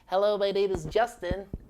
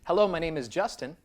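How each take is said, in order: First: It is spoken in a squeezed, nasal voice. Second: It is spoken in a plain, neutral voice.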